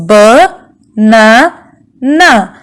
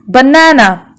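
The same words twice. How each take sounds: First: "B, na, na" with pauses between syllables; split into syllables. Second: Said in the usual way. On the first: Shown as a demonstration. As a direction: chop banana into "B", "na", "na". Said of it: "we can divide this word into three parts". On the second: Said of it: "How many vowel sounds can we hear".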